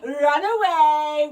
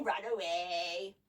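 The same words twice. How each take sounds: First: Very loud, slow, rising boom; huge mechanical monster's roar; booming giant's command. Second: Slow, low, drawn-out echo; softer, lowered monster voice; giant's fading command. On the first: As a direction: bellow it slowly, pitched up. Giant orders the children off. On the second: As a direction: let it sink and die away slowly. Giant's echoing second command. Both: A narrator's reading.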